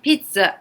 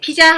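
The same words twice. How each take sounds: First: The word is said with a drawn-out sound. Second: The word is said plainly and short. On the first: The speaker calls it right. "좀 더 하면서 끌어주는" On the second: The speaker calls it wrong. "그냥 피자 하면 안 돼요"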